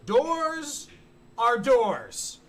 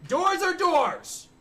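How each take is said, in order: First: Said in the usual way. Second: "are" stretched high and slow in "Doors are doors"; stress on are. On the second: Shown as a demonstration. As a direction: lean hard on "are", slowly.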